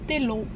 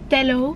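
First: The first vowel sounds like 'i'. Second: The first vowel sounds like 'e'. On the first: This is how commenters say it is pronounced. "dat je het uitspreekt als Tillo" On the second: This is how the speaker has always said it. "zeg ik Tello"

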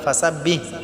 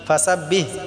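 The two takes are said the same way.

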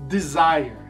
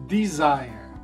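Both takes have the same delivery.

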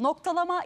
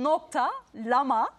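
First: It is said as one continuous word. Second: It is split into two words with a break. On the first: It means punctuation. "Biri şöyle de söyleyebilirim" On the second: It means dot plus the llama animal. "Diğer türlü de nokta, lama, yani o hayvan bildiğimiz lama"

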